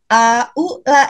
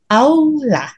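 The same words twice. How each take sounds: First: The vowels a and u are split apart. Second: The vowels a and u run together. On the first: The speaker calls it wrong. "bukan aula gitu" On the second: The speaker calls it right. "tapi aula ya"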